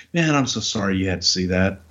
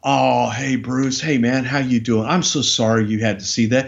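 First: Lower, deflated, sincere sorry; a touch of sheepish calm after the outburst; calmed-down apology. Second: Said in the usual way. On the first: Retold or imitated. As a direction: let the anger drain out and apologise. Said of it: "puts his shoulders down and goes". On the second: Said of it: "he just stops and looks at me and goes".

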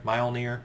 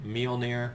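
First: Mjolnir said as "MY-ol-neer"; first syllable of "Mjolnir" rhymes with "my"; variant pronunciation. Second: Mjolnir said as "MEE-ol-neer"; first syllable of "Mjolnir" rhymes with "me"; variant pronunciation. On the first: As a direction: say "Mjolnir" with a "my" start. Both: Real, not acted. Trying out pronunciations of a name.

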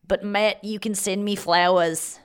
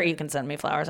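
First: Slow, put-on Australian; Australian accent. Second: Said in the usual way. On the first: Telling Matt to send flowers, mock Australian accent. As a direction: lean into a badly faked Australian accent. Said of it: "I got Australian on that".

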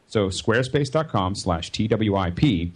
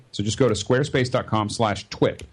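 First: "T W I P" said as four separate letters, slowly; spelled out. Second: Said in the usual way. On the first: Shown as a demonstration. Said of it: "spells out the URL". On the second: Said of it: "repeats the URL".

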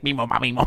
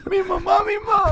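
First: A touch of alien babble; quiet odd alien gibberish. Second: High squeaky alien whimper; crying alien, very high. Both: Pretend. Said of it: "that's your alien voice".

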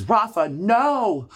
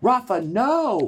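First: High, slow pleading cry of no; alarmed cry. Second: Even higher, slow desperate no; alarmed cry. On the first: Wife begging her husband not to tell, high drawn-out cry. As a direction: stretch the no out high in horror. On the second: Wife repeats her plea to the husband, higher and drawn out. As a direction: plead again, higher still, stretched out. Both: Retold or imitated. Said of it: "And, and Coco goes".

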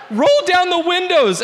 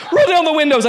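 First: High, loud panicked scream. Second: Screamed high and loud, with a laugh in it; panicked scream. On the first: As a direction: scream it again in terror. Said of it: "as I screamed". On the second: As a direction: yell it in panic, laughing through it. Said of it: "I screamed". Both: Retold or imitated.

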